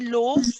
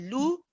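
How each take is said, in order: First: The vowel is an open 'oh' sound. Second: The vowel is a rounded 'oo' sound. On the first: The speaker calls it wrong. "Don't say lo" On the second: The speaker calls it right. "You want to say lu"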